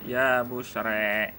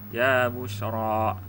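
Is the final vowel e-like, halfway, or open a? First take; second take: e-like; open a. First: The final vowel is tilted strongly toward e. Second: The final vowel is a fully open a. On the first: "Yang kedua dibaca dengan imalah" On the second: "Boleh dibaca dengan fathah"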